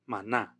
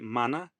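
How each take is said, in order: First: The stress is on the second syllable. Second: The stress is on the first syllable. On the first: "in Spanish, the way that we pronounce mana is mana" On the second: "where the accent is put on the first syllable"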